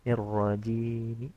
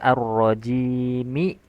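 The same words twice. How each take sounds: First: The final vowel is only faintly voiced. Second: The final vowel is fully and clearly voiced. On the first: "sepertiga ya. Bacaan seper sepertiga" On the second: "Kan harusnya dibaca ar-rajimi"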